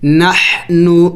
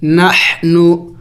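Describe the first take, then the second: First: نحنو slowly, ح from the middle of the throat; throat letter. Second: نحنو with ح breathed from mid-throat; slow demo of نحنو; throat letter. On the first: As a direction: breathe the ح in نحنو. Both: Shown as a demonstration. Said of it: "حلق سے ادا کریں گے".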